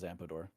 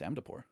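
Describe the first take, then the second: First: The name is said with p before d. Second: The name is said with d before p. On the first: The speaker calls it wrong. "Everyone says Ampador, but it's not" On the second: The speaker calls it right. "It's Amdapor"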